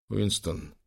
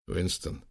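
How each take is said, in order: First: Shaky hushed name; trembling whisper. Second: Hushed, pleading name; whispered. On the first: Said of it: "прошептал Лэнгдон дрожащим голосом". (дрожащим шёпотом) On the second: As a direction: barely breathe the name. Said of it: "прошептал Лэнгдон". (шёпотом) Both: A narrator's reading.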